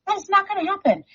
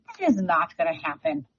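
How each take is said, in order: First: "not" punched on a much higher pitch; stress on NOT. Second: Said in the usual way. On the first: Shown as a demonstration. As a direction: hit the word "not" hard and high.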